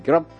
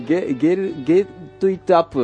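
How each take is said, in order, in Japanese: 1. 単語を速く、つなげて言います。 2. それぞれの単語を、しっかり区切って言います。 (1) "早くてクルッと言うとね、ゲロップになる" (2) "本当はね、ゲットイットアップなんですけどね"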